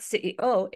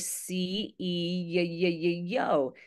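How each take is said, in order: First: Short vowels, letters said separately. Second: Longer vowels, letters linked with glides. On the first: The speaker calls it wrong. "It's not C E O" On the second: The speaker calls it right. "it's actually C E O"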